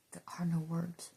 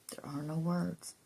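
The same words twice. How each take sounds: First: Hushed, unvoiced whisper; soft whispered awe. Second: Said in the usual way. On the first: Real, not acted. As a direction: breathe the words out. Whispered then repeated voiced.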